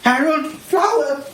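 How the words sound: The voice sounds panicked as if fleeing danger. The person is being chased by bees. "we're being chased by a bunch of bees"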